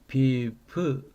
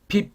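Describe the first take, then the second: First: A short vowel sound follows the final b. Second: The word ends abruptly on a closed b. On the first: The speaker calls it right. "비브 그렇게 발음하면 돼요" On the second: The speaker calls it wrong. "빕 그렇게 발음하지 않고"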